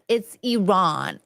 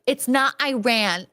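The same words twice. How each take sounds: First: "Iran" slowed and corrected to "ee-RAHN". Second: "Iran" said American-style as "eye-RAN"; wrong Iran. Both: Retold or imitated. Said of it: "And they're like".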